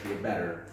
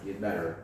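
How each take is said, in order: First: It is said in an American accent. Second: It is said in an American accent.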